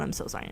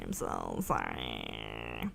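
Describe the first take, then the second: First: Said in the usual way. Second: Very low, slow, soft sorry; sorry stretched into a low moan; drawn-out mock sorrow. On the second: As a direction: drag the sorry out low and quiet. Repeated apology, second one stretched.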